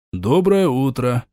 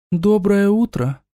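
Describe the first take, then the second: First: Said in the usual way. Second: Bright voice inside his head; high ghostly greeting; whispery telepathic voice. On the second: Acted. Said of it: "Голос прозвучал в сознании".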